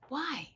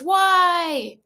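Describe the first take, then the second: First: It sounds calm and curious. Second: It sounds accusing, like yelling.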